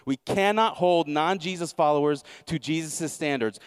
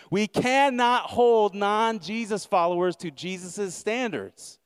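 First: Said in the usual way. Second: Higher, slowed, every word leaned on; slow emphatic repeat. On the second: Acted. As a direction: pastor driving his point home to the church, slow and weighty. Preacher repeats key line for emphasis.

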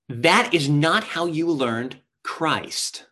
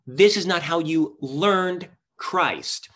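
First: Slow, each word weighed; slow emphatic quote. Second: Slow, stress on This; slow emphatic quote. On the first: Preacher reading the verse to the congregation, slow and weighty. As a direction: read the verse slowly, leaning on that. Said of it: "think about this with me". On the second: Preacher rereading the verse to the congregation, slow, stressing This. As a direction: land each word of the verse slowly, hitting This. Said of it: "It says". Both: Shown as a demonstration.

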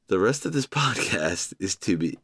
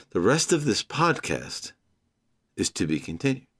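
First: A laugh breaking in mid-sentence. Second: Said in the usual way. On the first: Real, not acted. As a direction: crack up partway through the line. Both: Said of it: "I don't know why I'm laughing".

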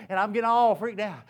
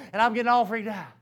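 The two takes are said the same way.

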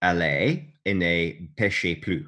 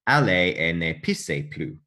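First: French phrase with "péchez" pronounced peh-shay; priest's French absolution. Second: "pissez" said with a hissed s in the middle; French phrase with "pissez" pronounced pee-say; misheard French absolution. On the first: Priest absolving a devout woman, "péchez" with a sh sound. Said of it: "So he said". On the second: What the woman misheard from the priest, "pissez" with an s sound. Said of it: "But apparently she heard". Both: Retold or imitated.

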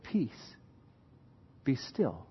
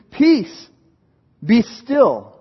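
First: Soft, low, calm command; hushed command. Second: High, loud command to the storm; commanding rebuke. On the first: Jesus stilling the storm, soft and calm. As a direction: speak peace quietly over the storm. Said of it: "And he said". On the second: Jesus rebuking the wind and sea, loud command. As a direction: order the sea to calm down. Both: Acted.

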